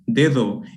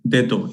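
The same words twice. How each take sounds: First: The second d is a soft interdental fricative. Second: The second d is a hard alveolar stop. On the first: The speaker calls it right. "we have both of them, like in when we say" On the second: The speaker calls it wrong. "both of them are going to be pronounced with that um, alveolar stop"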